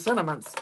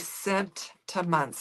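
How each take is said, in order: First: The word is said lazily, with sounds reduced. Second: The word is said carefully, every sound clear. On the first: The speaker calls it wrong. "me being lazy and saying" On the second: The speaker calls it right. "trying to get myself to say"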